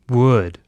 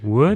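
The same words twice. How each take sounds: First: The voice falls like a plain statement. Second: The voice rises like a question.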